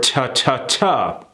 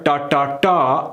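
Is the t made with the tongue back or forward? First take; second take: forward; back. First: The t is made with the tongue forward. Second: The t is made with the tongue pulled back. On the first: The speaker calls it right. "bring it more forward" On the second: The speaker calls it wrong. "get your tongue away from back here"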